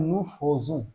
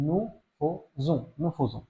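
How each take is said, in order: First: Said in the usual way. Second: Nous faisons said very slowly and softly, faisons with an o sound, not an e; soft, slow model of nous faisons for learners; slow pronunciation demo. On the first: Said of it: "এটার উচ্চারণটা হয় nous faisons". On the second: Shown as a demonstration. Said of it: "যেখানে আ ই এর উচ্চারণ হয় ওকার".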